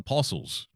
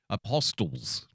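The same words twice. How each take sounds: First: The T in the middle is silent. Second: The T in the middle is clearly pronounced. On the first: This is the usual way to say it. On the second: This imitates how someone else said it.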